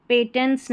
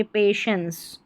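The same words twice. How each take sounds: First: पेटेंट्स with a hard t, pay-tents; पेटेंट्स as the mistaken t version; wrong pronunciation. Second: पेशेंस with a soft sh sound, pay-shens; पेशेंस spoken clearly as pay-shens; correct pronunciation. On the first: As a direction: read पेटेंट्स letter by letter with a t sound. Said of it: "पेटेंट्स नहीं पढ़ना है". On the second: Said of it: "टीआईईएनसीई को शंस करके पढ़ेंगे". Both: Shown as a demonstration.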